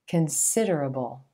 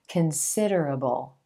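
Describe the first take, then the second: First: The stress is on the second syllable. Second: The stress is on the second syllable.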